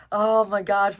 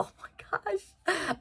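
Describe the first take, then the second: First: Said in the usual way. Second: Whispered "Oh my gosh" in awe. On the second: Real, not acted. Gushing over a character, awed whisper. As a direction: breathe "Oh my gosh" with no voice.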